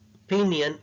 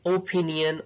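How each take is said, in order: First: The first vowel is a short schwa. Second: The first vowel is a full vowel. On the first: The speaker calls it right. "it's opinion" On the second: The speaker calls it wrong. "we don't say opinion"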